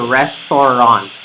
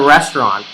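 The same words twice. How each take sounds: First: All syllables are pronounced fully and evenly. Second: The word is shortened, with syllables reduced. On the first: The speaker calls it wrong. "in the Taglish pronunciation, we enunciate all of the words equally" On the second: The speaker calls it right. "you don't enunciate all of the syllables"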